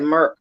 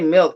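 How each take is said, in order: First: It is said like merk with an R. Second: It is said as standard milk with an L. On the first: "They said Merc. Got an R in it" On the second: "They didn't say milk"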